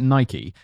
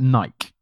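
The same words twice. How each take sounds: First: It is said the American way. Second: It is said the British way. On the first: "if I pronounce it Nike, ... stop pandering to the American" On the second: "in the UK, we call it Nike. And it's wrong"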